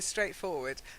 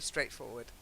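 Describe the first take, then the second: First: It is said as two separate words. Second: It is said as one joined word. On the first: Walk straight ahead. The speaker calls it wrong. "if you say it as if it's two words" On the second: It is very simple. The speaker calls it right. "you have to say it as one word"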